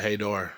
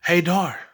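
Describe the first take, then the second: First: Hint of female voice. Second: A high, light call of his name; ghostly female voice. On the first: Recalling how the ghost called his name, quiet hint of a woman. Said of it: "a female". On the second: Retold or imitated. The ghost calling his name from nowhere, mock female voice. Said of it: "this voice go".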